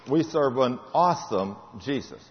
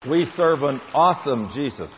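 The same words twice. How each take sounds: First: We said slow and soft, falling; tender affirmation to the folks; softer, slower repeat. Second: Said in the usual way. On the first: Acted. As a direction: let it sink in gently.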